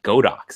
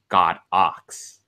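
First: It is said as one word, Go-dox. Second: It is said as two words, God Ox. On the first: The speaker calls it wrong. "it's not Godox" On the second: The speaker calls it right. "it's actually pronounced God Ox"

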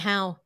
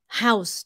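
First: The final consonant sound is left off. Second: The final consonant sound is clearly pronounced. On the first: The speaker calls it wrong. "you said in my how" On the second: The speaker calls it right. "don't drop the ending sound"

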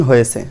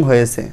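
Both takes have the same delivery.

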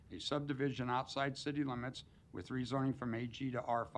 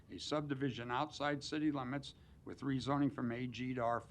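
No difference in how they are said.

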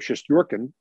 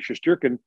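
First: The name is said closer to Russian. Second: The name is said in an anglicized way. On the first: This is closer to the original form of the name. "which is closer to what it actually is in Russian" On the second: This is the form the player prefers. "wants to be Shesterkin"

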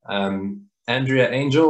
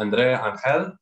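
First: The name is pronounced with English sounds. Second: The name is pronounced with Spanish sounds. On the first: "the English" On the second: "the Spanish way"

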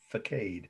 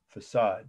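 First: The word is said the regional Indiana way. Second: The word is said the standard way.

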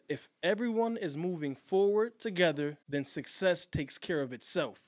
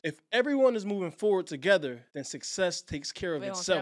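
First: The sentence is spoken at a slow, deliberate pace. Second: The sentence is spoken at a quicker, normal pace.

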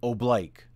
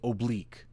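First: It is said with the military pronunciation. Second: It is said with the standard English pronunciation. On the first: This is the form used in military commands. "in the military, we say oblique" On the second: This is the proper everyday English form. "That's proper English to say oblique"

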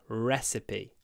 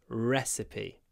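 No difference in how they are said.

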